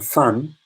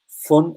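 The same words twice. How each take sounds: First: It is said with a Southern English vowel. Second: It is said with a Northern English vowel. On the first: "And fun is Southern English" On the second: "Fun is the North Northern English way of saying it"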